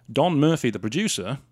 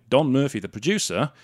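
Both takes have the same delivery.

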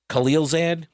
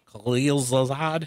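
First: Khalilzad with a flat "zad" as in "add"; Khalilzad, unsure, short A at the end; trying a pronunciation. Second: Khalilzad drawn out, ending in "zahd"; Khalilzad, slow and questioning, "ah" at the end; trying a pronunciation. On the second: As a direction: slowly sound out "Khalilzad" with a broad "ah" in the last syllable. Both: Shown as a demonstration. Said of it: "that's how he pronounces it".

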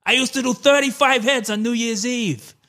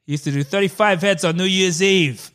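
First: Higher put-on DeVito voice; a rough DeVito impersonation; Danny DeVito impression. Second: Danny DeVito impression. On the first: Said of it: "not really his voice either". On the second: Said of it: "that wasn't really his voice".

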